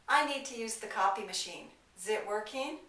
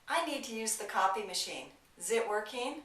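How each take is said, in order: The two takes are said the same way.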